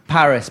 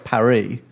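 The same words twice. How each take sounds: First: Paris is pronounced the English way. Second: Paris is pronounced the French way. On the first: This is the usual anglicised name. "we don't call Paris Paris" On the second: This is the native local name. "we don't call Paris Paris"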